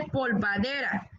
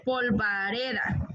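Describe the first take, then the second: First: "polvadera" with d before r; "polvadera" with the consonants swapped; wrong polvadera. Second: "polvareda" slowly, r before d; careful, slow "polvareda"; correct polvareda. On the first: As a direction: show the faulty "polvadera", ending -dera. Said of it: "No se dice polvadera". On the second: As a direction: model "polvareda", ending -reda. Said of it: "se dice polvareda". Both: Shown as a demonstration.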